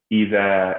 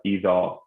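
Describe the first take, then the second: First: "Iza" with a thin, light Za, no heaviness. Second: "Iza" with a thickened, heavy Za and rounded vowel. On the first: Tajweed teacher showing students the right reading, light "Iza". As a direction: say "Iza" with the Za and vowel kept thin. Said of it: "So it's not in Khusa". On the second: Tajweed teacher showing students the mistake, heavy "Iza". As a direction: say "Iza" wrongly full-mouthed, like "Izaw". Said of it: "Iza instead of Iza". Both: Shown as a demonstration.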